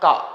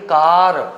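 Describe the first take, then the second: First: The word ends on the vowel, with no r. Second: The word ends with an audible r sound. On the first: The speaker calls it right. "इसका उच्चारण है का" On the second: The speaker calls it wrong. "इसको पढ़ेंगे कार"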